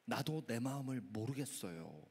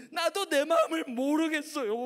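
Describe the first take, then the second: First: Low, soft admission; sober reflection. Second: High, loud acted despair; wailing schoolgirl. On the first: Shown as a demonstration. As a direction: say it quietly, as your own confession. Preacher repeats it soberly himself. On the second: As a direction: cry out helplessly to the pastor. Girl wails in despair.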